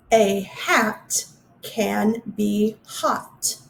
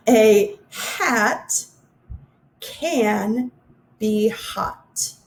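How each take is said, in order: First: Very slow, every word spaced apart; slow careful reading. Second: Slow again, pausing between words; slow careful reading. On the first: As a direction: read the last sentence slowly. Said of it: "the last one". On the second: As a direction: read it once more slowly. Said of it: "I forgot to raise my hands". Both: Shown as a demonstration.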